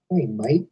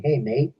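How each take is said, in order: First: Put-on Australian accent. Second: Said in the usual way. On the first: Vlogger quoting his friend's message, Australian accent. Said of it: "I should do his accent". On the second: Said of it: "or I guess I should do his accent".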